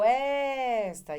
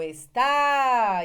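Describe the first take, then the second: First: The stress is on the first syllable. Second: The stress is on the last syllable. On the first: "e ela vai ver que é o S" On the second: "Quando o azinho tiver na última sílaba, leva acento"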